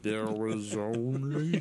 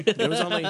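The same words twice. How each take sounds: First: Exaggeratedly drawn-out, slow-motion words; mock slow talk. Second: Said in the usual way. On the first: Teasing the listener who said slow down, absurdly slow. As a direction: stretch every word way out in mock compliance. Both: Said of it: "you don't have to talk that fast".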